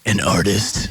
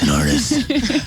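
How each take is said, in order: First: It is said in the speaker's normal voice. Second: It is said in a put-on Batman voice. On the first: "I'm using quote fingers" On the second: "in a Batman voice"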